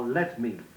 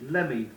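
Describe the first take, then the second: First: Each word is said carefully in full. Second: The words are run together carelessly. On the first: The speaker calls it right. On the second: The speaker calls it wrong.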